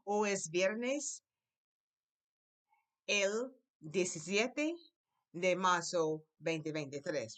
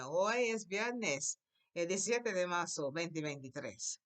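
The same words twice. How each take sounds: First: Very slow, each word drawn out; slow model sentence. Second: Slow start on "Hoy", then normal pace; slow model again. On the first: Teacher repeats the date slowly for the class. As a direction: lay it out slowly for learners. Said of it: "One more time". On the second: Teacher models the date again for the class. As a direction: repeat the sentence slowly. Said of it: "Try again". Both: Shown as a demonstration.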